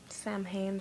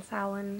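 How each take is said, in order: First: Samhain said as "sam-hayn"; spelled-out Samhain pronunciation. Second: Samhain said as "SOW-en"; Gaelic Samhain pronunciation. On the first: Offering viewers options, Samhain as "sam-hayn". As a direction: say "Samhain" with a sounded m and h. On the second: Offering viewers options, Samhain as "SOW-en". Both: Shown as a demonstration. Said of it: "however you say it".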